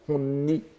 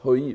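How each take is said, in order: First: The word is said with an n sound. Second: The word is said without an n sound. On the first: "Parfois aussi on peut prononcer honni" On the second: "on prononce hoi"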